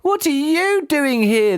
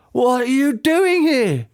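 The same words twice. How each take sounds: First: Put-on slow, high child's voice, demanding; a boy firing the question back. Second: Slow, high demanding father's voice; lightly voiced dad, demanding. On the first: Son throws the same question back at dad, high and slow. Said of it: "the boy demanded". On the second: Dad demands why his son is here, slow and high. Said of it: "the man demanded". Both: A narrator's reading.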